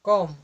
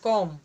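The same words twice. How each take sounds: The two takes are said the same way.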